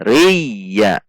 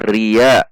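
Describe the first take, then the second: First: The y sound is doubled with pressure. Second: The y sound is short and unpressed. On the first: The speaker calls it right. "Riya berarti ada tasydid" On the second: The speaker calls it wrong. "Kalau dibaca ria berarti tidak ada tasydid"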